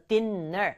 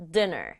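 First: Dinner with a single n sound, "di-ner"; dinner said right. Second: Dinner with a single n sound, "di-na"; dinner said right. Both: Shown as a demonstration. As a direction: say dinner with one short n. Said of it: "dinner 아니고 dinner". (dinner를 n 한 번만 소리 내서)

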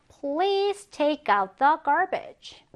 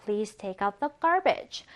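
First: Very slow request; slow example reading. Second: Slow reread. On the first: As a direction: read it slowly for learners. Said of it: "쓰레기를 내놔주세요". (천천히 예문 읽기) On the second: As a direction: repeat it slowly. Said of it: "무엇을 내놓다죠". (다시 천천히 읽기) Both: Shown as a demonstration.

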